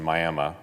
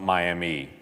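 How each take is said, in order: First: The word ends with an 'uh' sound. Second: The word ends with an 'ee' sound. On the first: This is how the local town's name is said. The speaker calls it right. "it's the correct pronunciation" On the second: This is the name of the well-known city elsewhere. The speaker calls it wrong. "That's not Miami"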